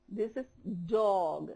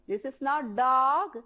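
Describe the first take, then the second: First: Dog with rounded lips, slow and soft; correct pronunciation. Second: Dog said the wrong way, slow and drawn. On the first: Teacher modeling the right way to say dog for the class. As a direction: model dog carefully with an O-shaped mouth. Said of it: "your lips should be in O shape". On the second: Teacher demonstrating the wrong pronunciation of dog. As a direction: show the mistaken way to say dog. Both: Shown as a demonstration.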